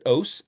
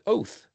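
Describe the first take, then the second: First: The word ends with an s sound. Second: The word ends with a th sound. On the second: "some people use T H for tav"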